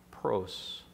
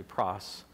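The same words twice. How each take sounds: First: Pros with a long o, like prose; mispronounced pros. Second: Pros said softly with a short o, like pross; corrected pros. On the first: Preacher's first, wrong try at the Greek pros. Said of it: "or it's actually pros". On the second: Preacher correcting himself on the Greek pros. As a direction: say pros to rhyme with boss. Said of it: "it's actually pros". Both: Shown as a demonstration.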